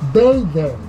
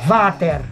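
First: The name is pronounced with an English reading. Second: The name is pronounced like the German word Vater. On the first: The speaker calls it wrong. "La palabra Vader está leída en inglés" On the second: The speaker calls it right. "pero se debería pronunciar Vater"

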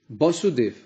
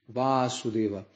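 First: The first vowel is a closed, short a. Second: The first vowel is an open, long a. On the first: The name refers to the father. "com A fechado, se refere ao pai" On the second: The name refers to the son, Krishna. "o nome Vasudeva terá o primeiro A aberto"

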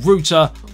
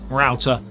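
First: It is said the British way, like 'rooter'. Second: It is said the American way, like 'rowter'.

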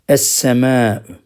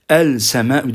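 First: The l blends into a doubled s sound. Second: The l of the article is clearly pronounced. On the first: The speaker calls it right. "Lamlar okunmuyor" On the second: The speaker calls it wrong. "El semâ'ü diyemeyiz"

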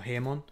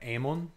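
First: The word starts with an h sound. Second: The word starts directly with a vowel.

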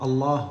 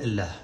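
First: The L is thick and heavy, darkly velarized. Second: The L is thin and light, not velarized. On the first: "متى تفخم اللام" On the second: "ومتى ترققها"

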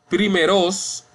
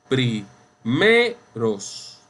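First: The stress falls outside the middle syllable. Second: The stress is on the middle syllable. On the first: The speaker calls it wrong. "No decimos primeros" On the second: The speaker calls it right. "Decimos primeros"

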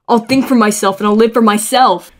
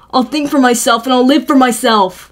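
First: The final 'myself' carries strong stress. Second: The final 'myself' carries no special stress.

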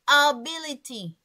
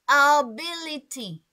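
The two takes are said the same way.

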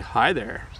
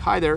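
First: The greeting sounds warm and flirtatious. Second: The greeting sounds plain and neutral. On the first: The speaker is romantically interested in the listener. "if you were doing it romantically... you would say hi there... I don't know if you heard my tone there" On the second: It is just a friendly everyday greeting. "you can use hi there somewhat neutrally as well"

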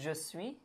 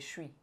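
First: Both words are said fully and separately. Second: The two words are run together into one. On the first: This is the textbook form. "I almost never say je suis" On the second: This is how it is really spoken. "I say je suis"

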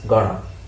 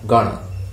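First: The words are blended into one reduced form. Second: The words are blended into one reduced form.

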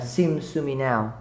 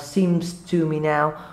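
First: The word 'to' is swallowed in fast speech. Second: The word 'to' is pronounced clearly. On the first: "Đôi khi nói nhanh sẽ là" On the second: "Đôi khi bạn sẽ nói là"

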